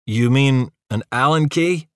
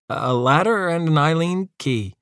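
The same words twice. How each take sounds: First: "Allen" with a short flat a, al-len; correct Allen key. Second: "Eileen" said like the name, eye-leen; "Eileen key" with a long eye-leen; mispronounced Allen key. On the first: Uva correcting the lanky one: "Allen" as al-len. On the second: Lanky one asks Uva for tools: "Eileen key" as eye-leen. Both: A narrator's reading.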